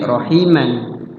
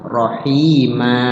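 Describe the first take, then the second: First: It ends in a short vowel plus n. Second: It ends in a long vowel without n. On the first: This is the reading inside the sentence. "dibaca pendek rohiman" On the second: This is the reading when stopping at the end. "Rohima jadi panjang"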